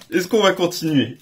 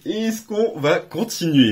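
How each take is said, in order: First: Said in the usual way. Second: Slow, teasing repeat; slow, suspenseful repeat; drawn-out suspense. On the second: Real, not acted. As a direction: stretch it out to build suspense. Suspense before next booster.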